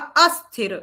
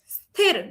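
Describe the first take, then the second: First: It begins with an extra vowel sound. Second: It begins directly with the consonant cluster. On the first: The speaker calls it wrong. "अस्थिर न सम्यक्, उसका एकदम अर्थ एव परिवर्तनं भवति" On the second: The speaker calls it right. "स्थिर स्थिर इति सम्यक्"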